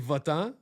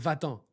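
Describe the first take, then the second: First: The word is said with a Québécois accent. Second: The word is said with a French accent. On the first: "les Québécois, c'est votant" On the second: "Les Français, c'est vatant"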